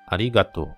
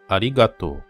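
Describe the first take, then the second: The two takes are said the same way.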